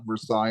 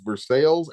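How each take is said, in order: First: The name is said with a French pronunciation. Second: The name is said with an English pronunciation. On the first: It names the place in France. The speaker calls it wrong. "not Versailles and Paris" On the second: It names the town in Kentucky. The speaker calls it right. "it's Versa- Versailles and Paris, Kentucky"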